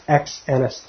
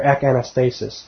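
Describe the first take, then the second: First: "ex anas-", prefix ending in a ks sound; "ex anas-", the prefix said as eks; pronounced with ex. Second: "ek anastasis", prefix ending in a hard k; "ek anastasis", the prefix cut to a plain k; pronounced with ek. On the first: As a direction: say "ex" with a full x, then break off after "anas-". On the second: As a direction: say "ek" with no s before "anastasis". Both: Shown as a demonstration. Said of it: "or ek anastasis".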